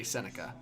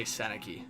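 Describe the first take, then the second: First: "Seneca" ending in an unstressed "kuh"; pronounced Seneca. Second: Viewers confused by name pronunciations, "Seneki" ending in a "kee" sound; pronounced Seneki. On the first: Streamer quoting the player's own way, "Seneca" ending in "-kuh". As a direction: say "Seneca" with a final "uh". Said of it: "I swear I've heard him say". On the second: Streamer quoting what many people say, "Seneki" ending in "-kee". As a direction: say "Seneki" with a final "ee". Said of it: "I'm hearing so many people say". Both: Retold or imitated.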